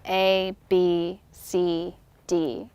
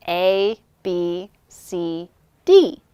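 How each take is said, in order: First: From the back of the throat. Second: Plain. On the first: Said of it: "pushing the voice out". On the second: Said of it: "the basic thing to start with". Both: Shown as a demonstration.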